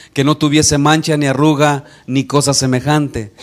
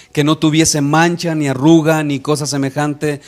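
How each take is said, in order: The two takes are said the same way.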